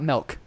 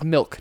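First: The vowel is an e sound, like 'melk'. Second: The vowel is the short i of 'milk'. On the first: The speaker calls it wrong. "not milk" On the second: The speaker calls it right. "It's milk"

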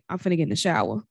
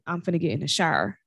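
First: The final R in shower is soft, barely pronounced. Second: The final R in shower is strong and harsh. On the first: "In Chicago, a lot of us would say" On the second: "In Indianapolis, a lot of folks will say ... That R is harsher"

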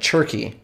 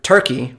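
First: The word begins with a ch sound. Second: The word begins with a t sound. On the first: "but with a CH at the beginning of it" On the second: "like the word turkey"

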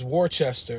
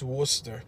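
First: The name is read out as it is spelled. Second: The name is said the local Massachusetts way. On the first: The speaker calls it wrong. "when you're driving through and you look at that sign, you're not from there. First thing you think is" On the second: The speaker calls it right. "It's not Worcester, it's Worcester"

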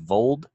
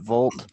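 First: The name ends with a d sound. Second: The name ends with a t sound. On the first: The speaker calls it right. "His name's Colby Vold, right? V-O-L-D" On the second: The speaker calls it wrong. "I accidentally mispronounced it, Volt"

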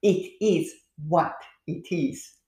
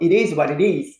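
First: It is said slowly. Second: It is said at normal, fast speed.

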